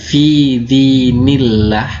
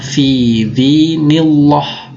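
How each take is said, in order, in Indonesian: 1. Huruf L di Allah itu tipis. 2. Huruf L di Allah itu tebal. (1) "Dibacanya bukan fi dinillah" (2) "tapi dibaca fi dinillah. Nah, itu tebal tuh"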